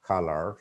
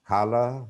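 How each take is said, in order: First: COLOR with the final r sounded; "color" rhotic, pitched lower; American pronunciation. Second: COLOR without the final r; "color" ending in an open vowel; British pronunciation. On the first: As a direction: say "color" as "kuh-ler". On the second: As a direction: say "color" as "kuh-luh". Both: Shown as a demonstration. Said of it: "different pronunciations".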